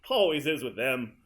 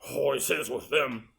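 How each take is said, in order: First: It is said gently, like a grandpa. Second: It is said gruffly, like a grumpy judge.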